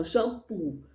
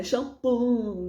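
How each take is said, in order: First: Said in the usual way. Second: Shampoo with a drawn-out nasal ending, "shampom"; wrong pronunciation. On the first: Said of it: "não, shampoo". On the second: Shown as a demonstration. Teacher showing the mistake to avoid, shampoo ending nasal like "shampom". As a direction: stretch the end of shampoo into a nasal hum. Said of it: "não é shampoo".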